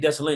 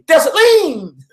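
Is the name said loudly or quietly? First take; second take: quietly; loudly. First: The name is said plainly, at normal volume. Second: The name is said loudly and forcefully. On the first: The speaker calls it wrong. "you can't just say Dessalines" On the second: The speaker calls it right. "She got to say his name loud"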